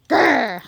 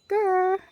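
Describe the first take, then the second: First: The growl is strong and firm. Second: The growl is weak and half-hearted.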